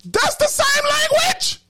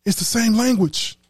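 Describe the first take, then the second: First: That's the same language sung out high and slow, leaning on the; preacher driving home That's the same language, high and slow; emphatic, drawn out. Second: Said in the usual way. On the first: Real, not acted. Preacher hammers the point home.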